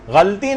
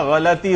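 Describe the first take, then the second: First: غلطی said as ghalti, two syllables, no vowel after the l; wrong pronunciation. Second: غلطی said as ghalati, three syllables, a clear short a after the l; correct pronunciation. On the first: Teacher showing students the wrong form: غلطی as ghalti. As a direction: demonstrate the mistaken ghalti, squeezing the middle vowel out. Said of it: "غلطی نہیں ہوتا". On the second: Teacher giving students the right form: غلطی as ghalati. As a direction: sound out the correct ghalati, every syllable distinct. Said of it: "غلطی ہوتا ہے". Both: Shown as a demonstration.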